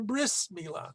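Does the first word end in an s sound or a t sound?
s sound. The first word ends with an s sound.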